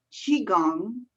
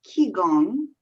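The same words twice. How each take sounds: First: Qigong said "chee-gong", ch opening; variant pronunciation. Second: Qigong said "kee-gong", hard k, louder; variant pronunciation. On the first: Showing the host a variant, qigong said "chee-gong". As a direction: start qigong with a ch sound. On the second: Showing the host a variant, qigong said "kee-gong". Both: Shown as a demonstration. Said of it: "all the same".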